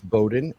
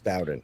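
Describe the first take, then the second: First: The name is said the northern way. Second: The name is said the southern way. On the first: This is how people up north say it. "if you're up north, it's Bowden" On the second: This is how people down south say it. "if you're down south, it's Bowden"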